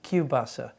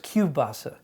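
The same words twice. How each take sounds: First: The middle consonant is pronounced as a W. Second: The middle consonant is pronounced as a W.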